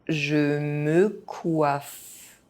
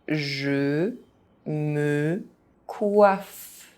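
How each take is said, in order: First: It is said at an ordinary speaking pace. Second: It is said very slowly, syllable by syllable. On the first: This is the pace learners should use. "at a normal pace" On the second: Each syllable can be followed. "very slowly"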